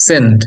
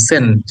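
First: Teacher repeats সেন্ট firmly for emphasis. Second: সেন্ট said low, with a clear এ vowel in the middle; teacher models the vowel in সেন্ট; modelled pronunciation. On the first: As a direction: say সেন্ট once more, firmly, with a clipped final t. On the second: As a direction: stretch the এ inside সেন্ট so the class hears it. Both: Shown as a demonstration. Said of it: "উচ্চারণ এর মাঝখানে এ আসছে".

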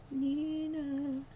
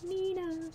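First: "Nina" sung out higher, drawn out and playful; higher playful name call. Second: High sing-song name. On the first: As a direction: call "Nina" in a bright raised voice. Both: Shown as a demonstration. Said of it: "I'm using Nina today".

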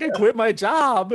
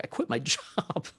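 First: High, loud, drawn-out wail of alarm; hammed-up panicked outcry; mock panic. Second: Laughing through the dismay; soft, half-laughed realization; retold dismay. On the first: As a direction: retell a freak-out at full pitch. Retelling his panic, repeated louder. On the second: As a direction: retell it quietly with a rueful laugh. Retelling his own dawning panic.

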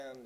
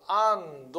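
First: "and" said softly with the vowel almost gone; a quick swallowed "and", vowel dropped; reduced and. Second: "and" said slowly and loud with its vowel fully sounded; a careful, over-clear "and" as the wrong way; full and. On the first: Teacher shows students the reduced "and", soft and light. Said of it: "もうほぼ母音は消えるからね". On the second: Teacher shows students the wrong full "and", slow and loud. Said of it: "じゃなくて、もうほぼ母音は消えるからね". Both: Shown as a demonstration.

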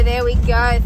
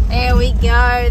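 First: Loud repeated praise. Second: Loud, slow, drawn-out praise. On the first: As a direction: keep cheering them along. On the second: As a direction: reward them with a big call. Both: Real, not acted. Sheep moving, praising them.

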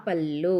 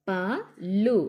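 First: "పళ్ళు" as one word with a doubled L; joined, held L. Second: "పళ్ళు" split into two separate letters, pa, lu. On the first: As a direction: blend "పళ్ళు", pressing and holding the L. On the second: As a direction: spell out "పళ్ళు" with a gap between pa and lu. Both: Shown as a demonstration. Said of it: "ఒత్తి పట్టి చదవాలి".

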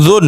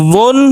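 First: জুন begun with a buzz at the tongue tip; first sound of জুন made with the tongue's tip. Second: জুন begun from the back of the tongue; heavy first sound in জুন, from the tongue's root. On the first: Teacher drilling letter contrasts, tongue-tip জুন. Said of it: "আর একটা জিহ্বার আগা থেকে উচ্চারণ". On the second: Teacher drilling letter contrasts, tongue-root জুন. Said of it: "একটা জিহ্বার গোড়া থেকে উচ্চারণ". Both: Shown as a demonstration.

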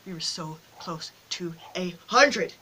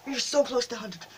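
First: Slow, word-by-word disappointment; slow lament. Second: Said in the usual way. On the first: Real, not acted. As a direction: spell out the near miss, dragging every word.

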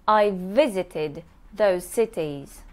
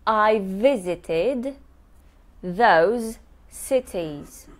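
First: Said in the usual way. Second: I visited those cities, slow with the v sounds joined; slow careful teacher model; slow linked demo. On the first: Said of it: "Remember about joining the sounds". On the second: Shown as a demonstration. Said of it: "I joined two V's".

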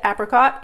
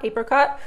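First: Apricot with short A, "AP-ricot". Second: Apricot with long AY, "AY-pricot"; other apricot. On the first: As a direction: say apricot as "AP-ri-cot". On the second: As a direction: say apricot as "AY-pri-cot". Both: Shown as a demonstration. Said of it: "like I said".

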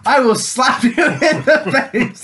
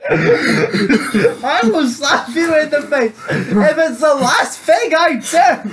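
First: Half-laughing playground threat; a touch of mock anger. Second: Slow, drawn-out threat, higher and laughing; mock villain vow; hammed-up threat. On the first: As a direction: threaten a slap while laughing. Threatening the crying engine James. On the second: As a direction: drag out every word of the threat like a melodrama villain.

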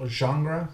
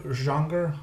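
Both takes have the same delivery.

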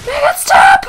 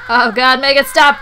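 First: Very high, loud mock-desperate scream; high screamed begging; frantic plea. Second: Loud pleading cry, building; mock-desperate, raised voice; desperate plea. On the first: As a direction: shriek the plea at full volume. Pleading louder during game mishap. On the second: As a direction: beg loudly for it to end. Pleading during game mishap.

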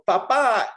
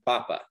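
First: PaPA, slow with a strong second syllable; stress on last syllable. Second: PApa, stressed at the start; weight on the first syllable of papa. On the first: Teacher shows the word for dad, papa stressed on last syllable. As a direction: stretch and hit the end of papa. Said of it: "because of this little accent mark". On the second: Teacher contrasts potato with dad, papa stressed on first syllable. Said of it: "a different word than papa". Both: Shown as a demonstration.

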